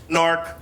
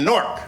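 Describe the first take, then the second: First: "Newark" in two syllables, NEW-urk; outsiders' pronunciation. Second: "Newark" squeezed into one syllable, NORK; local pronunciation. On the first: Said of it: "and that's wrong". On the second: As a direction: say "Newark" like "nork", rhyming with fork. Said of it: "Some people from not Newark call it Newark". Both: Shown as a demonstration.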